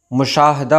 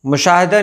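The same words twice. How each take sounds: First: मुशाहदा without "i" after h; correct pronunciation. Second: मुशाहिदा with "i" after h; wrong pronunciation. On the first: Teacher correcting the error for viewers, correctly pronounced. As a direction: say "mu-shaah-da" for मुशाहदा. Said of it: "मुशाहदा होता है". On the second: Teacher showing viewers the common error, mispronounced. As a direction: say "mu-shaa-hi-da" for मुशाहिदा. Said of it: "मुशाहिदा नहीं होता है". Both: Shown as a demonstration.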